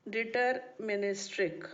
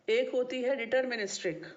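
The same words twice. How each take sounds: First: Syllable-by-syllable deterministic; deterministic drawn out for note-taking; slow dictation. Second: Said in the usual way. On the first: Real, not acted. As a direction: say deterministic slowly, each syllable separated. Repeats term slowly for note-taking.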